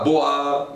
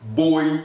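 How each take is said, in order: First: The vowel is said like 'wah'. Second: The vowel is said like 'oy'. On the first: The speaker calls it wrong. "pas boa" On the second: The speaker calls it right. "Je vais dire boi"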